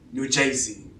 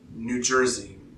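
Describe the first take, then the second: First: It is said in a local regional accent. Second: It is said in a general American accent.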